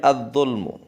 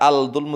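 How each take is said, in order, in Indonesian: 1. Bunyi L menyatu dengan konsonan berikutnya yang bertasydid. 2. Bunyi L jelas terdengar sebelum konsonan. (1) "tapi ad-dzulmu" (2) "jangan baca al-dzulmu"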